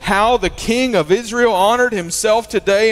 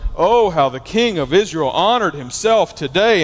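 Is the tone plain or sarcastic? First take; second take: plain; sarcastic. First: It is read in a plain, neutral tone. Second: It is said in a mocking, sarcastic tone.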